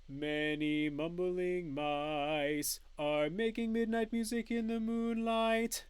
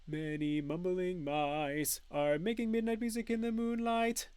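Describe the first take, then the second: First: It is said at a slower pace. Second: It is said at a somewhat faster pace.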